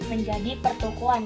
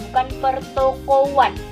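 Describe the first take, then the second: First: A w glide links the o and the a. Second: The o and the a meet without a glide. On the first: The speaker calls it right. "terjadi penambahan fonem W" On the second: The speaker calls it wrong.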